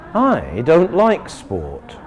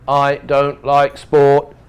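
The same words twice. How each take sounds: First: The first word carries the strong stress. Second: No word stands out from the others. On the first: Not me; ask another person. "If we want to say not me, ask another person" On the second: It is only a plain fact. "simple fact"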